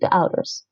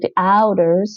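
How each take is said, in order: First: The first vowel of 'ouders' is kept short. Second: The first vowel of 'ouders' is drawn out long. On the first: The speaker calls it right. "make the actual vowel sound shorter in length" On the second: The speaker calls it wrong. "you don't say the ouders"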